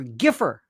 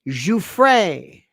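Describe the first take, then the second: First: The name is said like 'Giffer'. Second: The name is said like 'Joo-fray'. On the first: The speaker calls it wrong. "One moron called her Giffer" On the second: The speaker calls it right. "Learn how to pronounce Giuffre"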